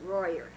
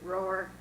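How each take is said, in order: First: The name is two syllables, rhyming with 'lawyer'. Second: The name is one syllable, rhyming with 'door'. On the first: This is how the name is said in Dixon. "Because in Dixon, we pronounce it royer" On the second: This is how the name is said in Woodland. "In Woodland, we pronounce it roar"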